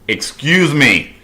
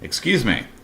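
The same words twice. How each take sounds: First: It is said in a firm, forceful tone. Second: It is said in a polite, mild tone.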